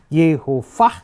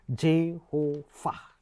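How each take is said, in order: First: The word begins with a y sound. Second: The word begins with a j sound.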